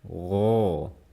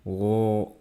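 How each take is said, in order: First: The sound is pushed straight out. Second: The sound is held back inside. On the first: The speaker calls it right. "dorong langsung keluar" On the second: The speaker calls it wrong.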